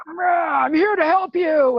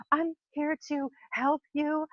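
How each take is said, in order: First: Loud pushy visitor. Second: Sweet mock greeting. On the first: Retold or imitated. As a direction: boom out "I'm here to help you" like someone after a bad day. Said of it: "they've had a really bad day and they're loud". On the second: Visitor greeting the animal too sweetly, a light syrupy imitation. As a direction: say "I'm here to help you" as a syrupy nice person. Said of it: "the words coming out of your mouth".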